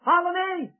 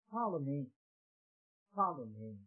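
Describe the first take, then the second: First: Lifted, louder follow me; ringing call. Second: Low, softer follow me, echoed; hushed repeat. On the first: Jesus calling Matthew to follow him, in a ringing summons. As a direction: call it out like a summons across the road. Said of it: "Jesus said, two words". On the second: Preacher softly echoing Jesus's call to his listeners, hushed. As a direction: let it fall to a hush. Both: Acted.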